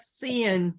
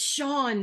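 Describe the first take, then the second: First: The name sounds like 'Cian'. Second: The name sounds like 'Sean'. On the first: The speaker calls it wrong. "not Cian" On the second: The speaker calls it right. "it's Sean"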